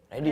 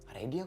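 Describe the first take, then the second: First: The word is said loudly and forcefully. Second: The word is said at a quiet, casual volume. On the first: The speaker calls it right. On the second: The speaker calls it wrong.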